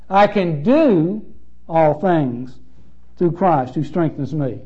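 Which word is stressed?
do. The stress falls on the word do.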